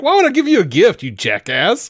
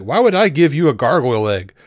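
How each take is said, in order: First: High, loud and fast sneer; hammed-up scornful brother, much higher and louder; mocking Cain voice. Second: Said in the usual way. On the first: Cain scoffing at Abel over the gift, high loud mocking voice. Cain's reply redone as mock.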